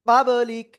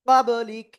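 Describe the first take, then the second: Both takes have the same delivery.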